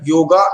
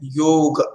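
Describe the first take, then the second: First: The word ends with a long a vowel. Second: The word ends on the consonant g. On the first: The speaker calls it wrong. "अनवधानता के कारण योगा इस तरह का अ, हम उच्चारण सुनते हैं" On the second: The speaker calls it right. "इसका उच्चारण हम करते हैं योग"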